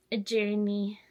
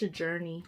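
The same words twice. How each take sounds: First: "journey" drawn out in mock imitation; mocking buzzword. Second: Said in the usual way. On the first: Vlogger mimics people online who say "journey", mockingly. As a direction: say "journey" like an online influencer, with distaste. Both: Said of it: "it's a specific way people say journey".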